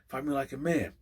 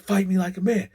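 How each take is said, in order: First: It is said at a quieter level. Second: It is said loudly, almost shouted.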